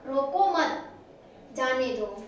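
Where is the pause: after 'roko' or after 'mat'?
after mat. There is a pause after the second word. Do not stop him; let him go. "कि छोड़ दो मत रोको"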